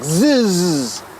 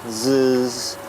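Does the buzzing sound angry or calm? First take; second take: angry; calm. First: The buzz sounds agitated and angry. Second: The buzz sounds relaxed and calm. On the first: The bees are annoyed. "And when they're pissed" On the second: The bees are content. "When they're just like chill"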